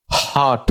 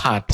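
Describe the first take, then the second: First: "হট" with a British rounded o vowel; British pronunciation. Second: "হাট" with an open American ah vowel; American pronunciation. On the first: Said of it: "আর British উচ্চারণ হবে". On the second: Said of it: "আমেরিকার উচ্চারণ হবে হাট". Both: Shown as a demonstration.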